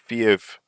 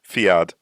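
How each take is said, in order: First: The name ends with a v sound. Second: The name ends with a d sound. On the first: "I think it's pronounced as a V" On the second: "Let's just pretend there's no H"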